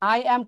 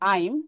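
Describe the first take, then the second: First: Two separate words are said in full. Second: The words are joined into one contracted word.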